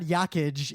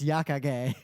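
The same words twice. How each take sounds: First: The name is said with English-style sounds. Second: The name is said with Japanese-style sounds. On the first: The speaker calls it wrong. "the guy's name is not Yakage" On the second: The speaker calls it right. "it's Yakage"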